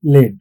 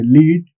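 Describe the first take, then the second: First: "led" rhyming with "red"; "led" like the metal, short vowel; short e pronunciation. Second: "lead" rhyming with "need"; "lead" as in to guide, long ee vowel; long ee pronunciation. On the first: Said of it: "It rhymes with red". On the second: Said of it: "rhymes with the word need". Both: Shown as a demonstration.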